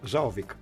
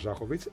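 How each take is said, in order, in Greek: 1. Τελειώνει σε 'ik' χωρίς ήχο 'h'. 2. Τελειώνει σε 'its' με ήχο 'h'.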